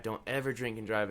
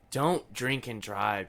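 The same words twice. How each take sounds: First: "ever" leaned on hard inside a softer warning; stress on ever. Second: Slow, deliberate warning, each word weighed; slow it right down to drive it home; earnest slow plea not to drink and drive. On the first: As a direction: hit "ever" to make it absolute. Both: Real, not acted. Warning listeners about drunk driving.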